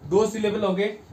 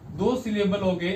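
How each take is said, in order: Both takes have the same delivery.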